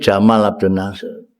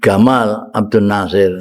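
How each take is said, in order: First: The name begins with a J sound. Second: The name begins with a hard G sound.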